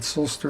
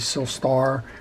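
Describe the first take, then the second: First: The last syllable sounds like 'ster'. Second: The last syllable sounds like 'star'. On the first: "I apologize if I'm pronouncing it Silster" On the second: "it should be Silstar"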